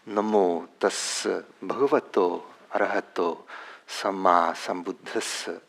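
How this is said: It is pronounced in the international Pali style. "in the uh, international style of pronunciation"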